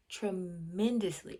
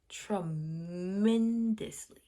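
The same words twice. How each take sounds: First: Said in the usual way. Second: "tremendously" stretched very slowly on the middle syllable; drawn-out emphasis. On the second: Real, not acted. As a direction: hold the MEN in "tremendously" long and strong.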